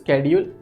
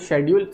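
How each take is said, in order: First: The word begins with an sk sound. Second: The word begins with an sh sound. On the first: "दोनों बोल सकते हो" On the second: "शेड्यूल जो बोलते हैं ... वो थोड़ा सही प्रोनाउंसिएशन है"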